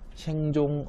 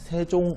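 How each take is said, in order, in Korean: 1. 첫 음절은 ng 소리로 끝나요. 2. 첫 음절은 ng 소리로 끝나지 않아요. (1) "이렇게 써 있는데" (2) "그냥 세종, 어제, 훈민, 정음이라고 읽으시면 돼요"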